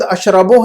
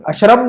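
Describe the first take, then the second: First: अशरबु with a clear short u ending; final u pronounced. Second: अशरब closed on a vowelless b; final vowel dropped. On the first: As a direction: voice the last vowel of अशरबु, ash-ra-bu. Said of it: "अशरब नहीं है वहाँ पर". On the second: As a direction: stop अशरब on the b, ash-rab. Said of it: "ला लगाने के बावजूद अशरबु है". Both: Shown as a demonstration.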